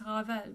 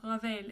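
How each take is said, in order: First: Ravel with an open "eh"; French Ravel, no glide; French pronunciation. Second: Ravel ending in "vale"; mispronunciation. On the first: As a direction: say Ravel as "rah-VELL", French r. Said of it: "with an E sound". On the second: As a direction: Ravel with a gliding "ay" vowel. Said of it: "So it's not". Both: Shown as a demonstration.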